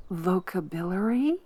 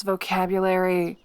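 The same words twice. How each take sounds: First: Vocabulary said as vo-ca-bi-lary, questioning rise; vocabulary mimicked with the wrong middle, voca-bi-lary; mocking mispronunciation. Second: Said in the usual way. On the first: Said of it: "did you just pronounce vocabulary".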